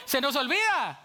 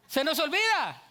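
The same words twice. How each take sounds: The two takes are said the same way.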